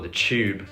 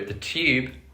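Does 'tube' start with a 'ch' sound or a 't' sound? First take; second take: ch sound; t sound. First: The word begins with a 'ch' sound. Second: The word begins with a plain 't' sound.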